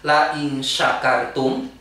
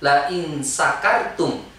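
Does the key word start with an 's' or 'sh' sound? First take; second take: sh; s. First: The key word starts with a 'sh' sound. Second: The key word starts with an 's' sound. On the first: If you are grateful. The speaker calls it right. "pakai sin besar tuh" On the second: If you are drunk. The speaker calls it wrong. "ada orang yang baca pakai sin kecil"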